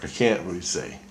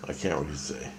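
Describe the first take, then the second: First: Said in the usual way. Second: Trailing off, much softer; softer repeat. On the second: Real, not acted. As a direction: say it again to yourself, dropping away.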